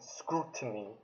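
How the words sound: The word is said in a posh British accent. "rather than scrutiny, you know, in British posh accent"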